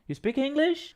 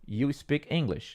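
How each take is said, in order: First: The voice rises at the end. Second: The voice falls flat at the end. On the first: It sounds like a question. The speaker calls it right. "Faz a entonação" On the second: It sounds like a statement. The speaker calls it wrong. "Não é"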